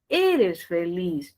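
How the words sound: The pitch falls at the end. It states that the person is happy. "Si yo no quiero que vaya hacia arriba y quiero que baje"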